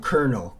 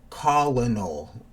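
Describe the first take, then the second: First: The word begins with a 'ker' sound. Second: The word begins with a 'col' sound. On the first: The speaker calls it right. "colonel is actually pronounced" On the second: The speaker calls it wrong. "spelling it right for the person, and it's just not the right way to pronounce it"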